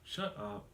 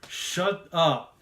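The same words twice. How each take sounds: First: It is said quietly and casually. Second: It is yelled loudly.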